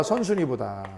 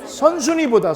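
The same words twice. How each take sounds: First: Soft repeat, trailing down; soft murmured echo of the answer; quiet echo. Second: Said in the usual way. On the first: Shown as a demonstration. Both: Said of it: "누구보다?".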